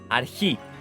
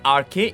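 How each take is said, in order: First: The word is said the Greek way. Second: The word is read the English spelling way. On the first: The speaker calls it right. "I'm just telling you the Greek" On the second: The speaker calls it wrong. "The way you have typed it, you will probably pronounce it as arche. It's not arche"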